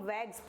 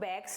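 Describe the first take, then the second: First: The word ends with a buzzing z sound. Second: The word ends with a hissing s sound. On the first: The speaker calls it right. "इसको हम वैग्स पढ़ेंगे" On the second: The speaker calls it wrong. "इसको हम बैग्स नहीं पढ़ेंगे"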